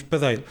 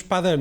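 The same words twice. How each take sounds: First: Padeiro with a closed, reduced a in pa; closed first vowel. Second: Padeiro with an open a in pa, stress on dei; open first vowel. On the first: Language show guest gives the way nobody says padeiro, closed a. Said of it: "não dizemos padeiro". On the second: Language show guest gives the usual way to say padeiro, open a. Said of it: "nós dizemos padeiro". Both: Shown as a demonstration.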